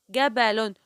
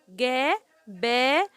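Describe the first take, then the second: First: Said in the usual way. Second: "جبل" very slowly, a long gap after each syllable; teacher sounding out "جبل". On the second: Shown as a demonstration. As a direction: break "جبل" into three separate, stretched sounds. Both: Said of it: "كل حرف لوحده".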